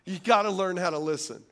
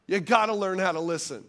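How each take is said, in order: Both takes have the same delivery.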